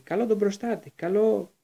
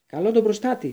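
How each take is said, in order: First: Raised voice casting a spell; spell cry. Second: High, loud spell cry; thundering shout. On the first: Boy casting a spell, raised voice. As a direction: call the spell out. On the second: Harry casting at the boggart, thundering shout. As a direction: roar the spell out. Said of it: "φώναξε με βροντερή φωνή". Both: A narrator's reading.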